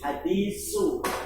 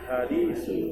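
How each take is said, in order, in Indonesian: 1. Konsonan tengahnya bunyi s biasa. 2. Konsonan tengahnya bunyi th yang lembut.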